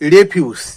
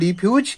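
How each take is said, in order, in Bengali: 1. শব্দটি বিশেষ্যের উচ্চারণে বলা হয়েছে। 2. শব্দটি ক্রিয়াপদের উচ্চারণে বলা হয়েছে। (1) "নাউন অর্থাৎ বিশেষ্য পদ হিসাবে ... প্রোনাউন্সিয়েশনটা তখন হবে রেফিউজ" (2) "ভার্ব বা ক্রিয়াপদ হিসাবে ব্যবহার করা হবে তখন তার উচ্চারণ হবে রিফিউজ"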